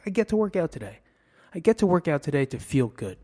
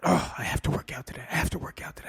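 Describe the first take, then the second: First: Brighter, higher, positive self-talk; upbeat gratitude. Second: Hurried, grudging groan; grumbling reluctance. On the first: Reframing the workout as a treat, upbeat gratitude. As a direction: say it like a privilege. Positive take against the have-to. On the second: Self-talk about having to exercise, grumbling reluctance. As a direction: rattle it off like a dreaded chore. Contrasting have-to with get-to. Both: Acted.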